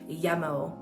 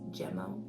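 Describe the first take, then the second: First: The name is said the Swedish way. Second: The name is said the English way. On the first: This is how Swedish relatives would say it. "I have family that lives in Sweden and they would call it" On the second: This is the speaker's own preferred way. "but I think it's"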